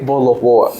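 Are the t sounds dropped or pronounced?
dropped. The t sounds are dropped. It is the casual way of speaking at home. "When they are at home, they will say"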